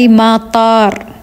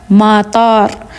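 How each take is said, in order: Both takes have the same delivery.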